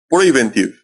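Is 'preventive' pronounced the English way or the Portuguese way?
English. The word is said with English-style sounds. The speaker calls it right. "Então seria preventive, preventive, correto?"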